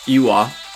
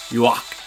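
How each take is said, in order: First: The name is said ending in a vowel. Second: The name is said ending in a k sound. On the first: "one is" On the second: "the more popular one is"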